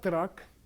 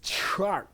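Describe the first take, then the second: First: The word begins with a plain t sound. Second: The word begins with a ch-like sound. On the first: The speaker calls it wrong. "It's not truck" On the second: The speaker calls it right. "It's truck. It totally breaks all the rules. Why is it C H?"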